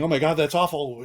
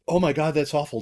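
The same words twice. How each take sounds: First: It sounds alarmed and panicked. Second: It sounds calm and steady. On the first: The listener is overwhelmed by what they heard. The speaker calls it wrong. "we have to panic" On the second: The listener stays composed and invites more detail. The speaker calls it right. "be curious"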